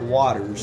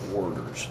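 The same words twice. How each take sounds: First: The first syllable has no R sound. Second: The first syllable has an R sound. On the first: The speaker calls it wrong. "It's not Waters" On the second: The speaker calls it right. "W A R T E R S"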